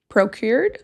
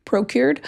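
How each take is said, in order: First: "procured?" with a questioning rise, testing the word; unsure try. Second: "Procured." said firmly once found; settled word. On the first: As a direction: ask the word "procured?" doubtfully, rising at the end. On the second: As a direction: land "Procured." with certainty. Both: Shown as a demonstration. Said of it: "There we go".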